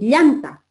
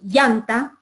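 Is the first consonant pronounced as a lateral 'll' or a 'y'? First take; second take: ll; y. First: The first consonant is a lateral 'll' sound. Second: The first consonant sounds like a 'y'. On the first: The speaker calls it right. "en vez de decir llanta" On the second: The speaker calls it wrong. "les cuesta realmente pronunciar la L y dicen llanta"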